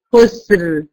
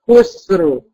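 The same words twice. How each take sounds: First: خسر with the final raa heavy and emphatic at the stop; the correct خسر, raa full and thick. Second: خسر said pitched up high, the final raa not heavy; the incorrect خسر, voice jumping up; wrong raa. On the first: Teacher gives the class the correct heavy raa in خسر. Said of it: "أنطق الراء بتاعت خسر عند الوقف بالتفخيم". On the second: Teacher shows the class the wrong خسر, pitched high. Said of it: "مش خسر". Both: Shown as a demonstration.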